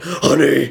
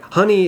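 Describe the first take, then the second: First: It is said in a very deep voice. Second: It is said in a normal speaking voice. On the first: This is how it actually came out when scared. "it comes out like, honey, like Batman" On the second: This is what was meant to be said. "trying to tell her like"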